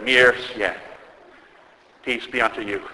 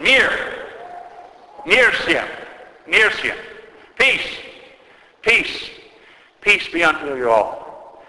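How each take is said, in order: First: Composed blessing. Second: Retold cry of peace, high-pitched calls. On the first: Retold or imitated. Bishop blesses the people once order is back, composed. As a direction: give the blessing calmly and evenly, letting it fall away. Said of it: "The bishop composed himself". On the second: Metropolitan calls for peace to an angry crowd, crying out high. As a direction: call out each word high, spacing them apart, then draw out the last. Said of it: "he yelled out unto them".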